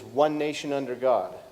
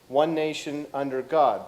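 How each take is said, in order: First: There is no pause after 'nation'. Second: There is a pause after 'nation'.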